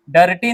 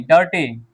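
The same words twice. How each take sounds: First: डर्टी with a fully sounded r, "da-ra-ti"; over-sounded r in डर्टी; wrong reading. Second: डर्टी with the r halved, "der-tee"; डर्टी with barely sounded r; correct reading. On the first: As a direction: break डर्टी up with a full "ra". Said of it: "डर्टी नहीं". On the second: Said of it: "आधा पढ़ते हैं या लुप्त". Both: Shown as a demonstration.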